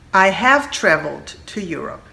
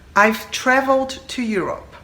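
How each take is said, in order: First: I have is said as two full words. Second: I have is contracted to one syllable.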